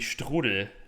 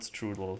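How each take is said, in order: First: The word has a German pronunciation. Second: The word has an English pronunciation. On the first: The speaker calls it right. "Would be strudel" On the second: The speaker calls it wrong. "Strudel is the English pronunciation"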